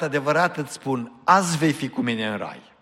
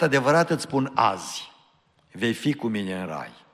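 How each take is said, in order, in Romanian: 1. Pauza vine imediat înainte de cuvântul azi. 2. Pauza vine imediat după cuvântul azi.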